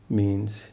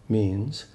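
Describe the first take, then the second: Both takes have the same delivery.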